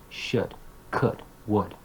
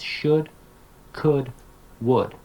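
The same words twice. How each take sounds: First: "Should, could, would" short, softer and reduced; quick, quiet unstressed "Should, could, would"; weak forms. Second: "should, could, would" in full form, no L; silent L. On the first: Teacher showing modal weak forms, reduced. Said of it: "they have their weak forms". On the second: Teacher telling students the pronunciation, careful full forms. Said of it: "the L is silent". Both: Shown as a demonstration.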